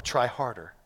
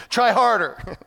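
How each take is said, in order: First: Said in the usual way. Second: Loud, high jeer from the sidelines; hammed-up coaching shout; mock heckling. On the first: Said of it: "I'm just gonna tell you the application". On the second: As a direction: yell it like a useless bystander. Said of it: "throwing rocks at them and saying".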